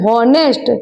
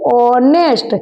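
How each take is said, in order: First: The word begins with an h sound. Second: The word begins directly with a vowel. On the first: "હ એટલે કે વ્યંજન હોનેસ્ટ" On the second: "પણ બોલાય છે શું?"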